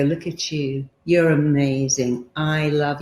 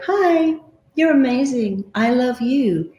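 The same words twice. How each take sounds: First: Quiet, slow, tender self-talk; soft mirror affirmation. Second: Much higher, bright and bouncy; cheery mirror greeting. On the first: Coach demonstrates tender words to her own reflection. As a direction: say it gently to yourself in the mirror. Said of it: "look in the mirror and go". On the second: Coach shows a high, cheery hello to the mirror. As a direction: greet yourself like a delighted friend. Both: Shown as a demonstration.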